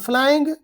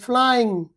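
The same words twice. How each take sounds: First: The word ends with a hard g sound. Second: The word ends with a nasal ng sound. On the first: The speaker calls it wrong. "this is not flying" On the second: The speaker calls it right. "but flying"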